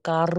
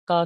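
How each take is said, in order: First: कार with the r sounded at the end; rhotic car, the wrong way. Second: का, a long open a with no r; non-rhotic car. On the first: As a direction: say कार with the final r. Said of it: "वो कार नहीं कहते". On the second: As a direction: say car as का, dropping the r. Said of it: "का कहते हैं". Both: Shown as a demonstration.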